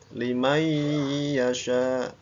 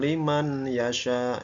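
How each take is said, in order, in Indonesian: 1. Bunyi n menyatu dengan y yang disengaukan dan dipanjangkan. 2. Bunyi n dibaca jelas sebelum y. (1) "Limai yasha ditekan ya, dua harokat" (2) "bukan liman yasha ya, itu berarti izhar kalau liman"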